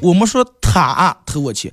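The stress is on 他.

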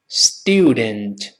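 The first syllable has a 'yoo' glide. "英式发音这个字母u 就是发u 这个双元音"

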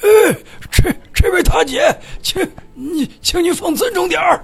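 It sounds like a halting old grandpa.

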